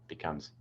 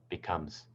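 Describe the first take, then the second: The two takes are said the same way.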